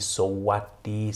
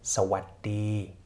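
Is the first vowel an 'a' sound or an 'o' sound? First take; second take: o; a. First: The first syllable has an 'o' vowel. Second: The first syllable has an 'a' vowel. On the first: The speaker calls it wrong. "wir können nicht sagen" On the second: The speaker calls it right. "sondern Sabai und Sawati"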